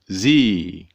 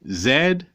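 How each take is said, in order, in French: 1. La lettre se prononce à l'américaine. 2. La lettre se prononce à la britannique. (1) "en anglais américain, Z se lit Z" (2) "En anglais britannique, Z se lit Z"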